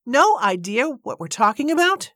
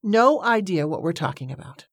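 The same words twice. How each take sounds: First: High, incredulous indignant echo, rising at the end. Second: Indignant echo as a firm statement, not a question. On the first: Woman echoes the man's dismissal, indignant and disbelieving. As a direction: throw it back as an outraged question. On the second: Woman repeats the man's dismissal, indignant, as a statement. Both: A narrator's reading. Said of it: "Miss Braithwaite was full of indignation".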